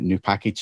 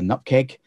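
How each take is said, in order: First: It is said as two full words. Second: It is said as one short word. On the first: This is the formal way to say it. "formally I pronounce it new package" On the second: This is the casual way to say it. "informally I call it a nupkeg"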